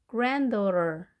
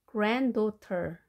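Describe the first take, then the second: First: "granddaughter" with the T softened to an R and no middle D. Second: "granddaughter" with a crisp T in daughter; clear T. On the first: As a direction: say "granddaughter" like gran-dorer. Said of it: "R 발음으로 하시고". ("granddaughter"의 T를 R로, D 없이 발음) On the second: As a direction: say "granddaughter" slowly, sounding the T. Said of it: "T 발음을". ("granddaughter"의 T를 그대로 또렷하게 발음) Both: Shown as a demonstration.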